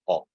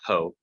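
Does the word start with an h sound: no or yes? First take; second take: no; yes. First: The word begins directly with the vowel. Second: The word begins with an h sound. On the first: The speaker calls it right. "but o" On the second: The speaker calls it wrong. "not ho"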